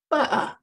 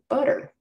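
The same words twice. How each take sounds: First: The middle T is a glottal stop. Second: The middle T sounds like a soft D. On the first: "there's the infamous glottal stop. Here's how it sounds if you're a Cockney" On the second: "in North America, if we have a T that's straddled by two vowels, we pronounce that as a D"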